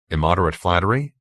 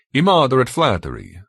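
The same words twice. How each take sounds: First: Said in the usual way. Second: High, formal, emphatic pronouncement; Benito. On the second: A narrator's reading. Benito telling how George got here, formal verdict. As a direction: deliver the verdict with stately certainty.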